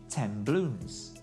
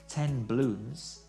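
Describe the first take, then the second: First: The sounds between the words blend together. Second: The sounds between the words stay distinct.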